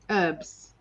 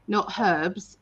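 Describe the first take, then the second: First: The word begins without an h sound. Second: The word begins with an h sound. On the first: "in America, you guys go herb. You, you miss out the her"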